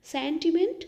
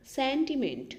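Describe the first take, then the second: First: sentiment said higher and louder, with a rising end; emphatic repeat. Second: Said in the usual way. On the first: Shown as a demonstration. (Sentiment को ऊँचे और ज़ोर से दोहराएँ) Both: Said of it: "Bhavna, sentiment".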